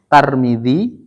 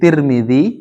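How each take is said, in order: First: The first syllable has the vowel a. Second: The first syllable has the vowel i.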